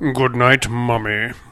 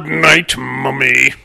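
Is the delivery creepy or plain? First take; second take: plain; creepy. First: It is said in a plain, neutral way. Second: It is said in a creepy, suggestive way.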